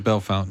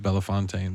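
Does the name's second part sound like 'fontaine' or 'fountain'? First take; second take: fountain; fontaine. First: The second part sounds like 'fountain'. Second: The second part sounds like 'fontaine'. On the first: This is how the locals say it. "we say Bell Fountain" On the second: This is a possible but less colloquial way to say it. "You could pronounce it Bellefontaine"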